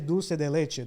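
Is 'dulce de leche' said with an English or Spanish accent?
Spanish. It is said with a Spanish pronunciation. "Spanish people say dulce de leche"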